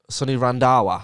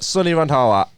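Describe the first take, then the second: First: The h in the name is silent. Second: The h in the name is pronounced. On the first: The speaker calls it right. "There we go" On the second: The speaker calls it wrong. "You don't say the H"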